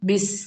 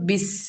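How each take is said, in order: Both takes have the same delivery.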